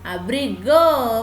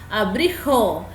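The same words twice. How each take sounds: First: The last consonant is a soft g sound. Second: The last consonant is a harsh throaty sound. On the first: The speaker calls it right. "yo quiero que suene suave" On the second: The speaker calls it wrong. "si yo pongo con J va a sonar abrigo"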